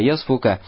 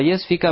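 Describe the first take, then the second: First: The vowel after the f is u. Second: The vowel after the f is i. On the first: "а можно с даммы" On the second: "можно читать с касры"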